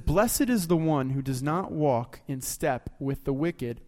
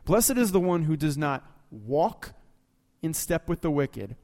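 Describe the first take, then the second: First: The words are read at a normal, even pace. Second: Each word is said with deliberate, heavy emphasis.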